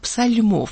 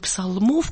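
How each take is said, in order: First: The L sound is soft, palatalized. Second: The L sound is hard, not softened. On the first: This is the older pronunciation that came from Poland. "а псальмов" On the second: This is the modern everyday pronunciation. "не псалмов, как мы сейчас говорим"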